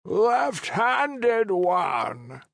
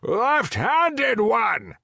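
First: High, slow call from far off; distant call. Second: Louder shout, coming nearer; walking closer. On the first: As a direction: call him from a distance, drawn out. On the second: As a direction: call again as you draw closer, louder. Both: Acted. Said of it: "The voice grew louder".

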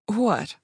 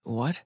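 First: Higher, falling, playful comeback; joking. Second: Low, questioning rise; wary prince. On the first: Thief brushing off her advance to the prince, joking. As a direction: play it off lightly, pitched up. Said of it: "She played off her advance jokingly". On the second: Prince questioning the thief's sudden invitation, wary and low. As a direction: ask it low and guarded, lifting at the end. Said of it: "Prince Sylvester's eyes narrowed". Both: A narrator's reading.

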